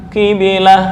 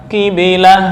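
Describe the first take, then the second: Both takes have the same delivery.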